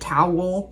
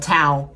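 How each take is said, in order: First: The word is said as two syllables. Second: The word is said as one syllable. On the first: "There are Americans who pronounce it towel" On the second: "I say towel, like T A L"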